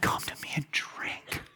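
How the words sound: The phrase is spoken in a quiet whisper. The speaker calls it wrong.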